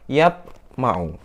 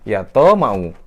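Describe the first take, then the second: First: The t sound ends with a short bounce. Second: A full vowel follows the t sound. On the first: The speaker calls it right. "Yang betul" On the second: The speaker calls it wrong. "Salah juga"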